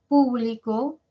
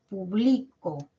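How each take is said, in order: First: The stress is on the first syllable. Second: The stress is on the second syllable. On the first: Something belongs or is open to many people. "el acento en la primera sílaba o en la antepenúltima" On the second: It is the action of publishing. "es el verbo"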